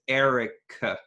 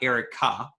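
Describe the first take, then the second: First: The final vowel is a short reduced 'uh'. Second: The final vowel is a full open 'ah'. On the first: The speaker calls it right. "the most common vowel in English" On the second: The speaker calls it wrong. "It's not Erica. We have the ah in Hebrew"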